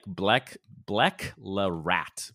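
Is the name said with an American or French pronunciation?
American. The name is read with an American pronunciation. This is how the spelling looks to an English reader. The speaker calls it wrong.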